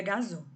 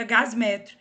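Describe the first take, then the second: First: "gasômetro" with a stressed O between gas and metro; linking vowel pronounced. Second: "gasmetro" with S running straight into M; form without linking vowel. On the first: Teacher showing the prettier form, linking O sounded and stressed. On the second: Teacher showing the less pretty form, consonants meeting without linking vowel. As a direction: join gas and metro with no O: "gasmetro". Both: Shown as a demonstration. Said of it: "mais bonita de pronunciar".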